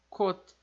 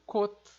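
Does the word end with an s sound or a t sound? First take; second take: t sound; t sound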